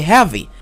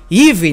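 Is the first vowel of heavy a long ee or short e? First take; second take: short e; long ee. First: The first vowel is a short e sound. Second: The first vowel is a long ee sound. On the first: The speaker calls it right. "I say heavy. EA pronounced as E in this word" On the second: The speaker calls it wrong. "I don't say heavy, no"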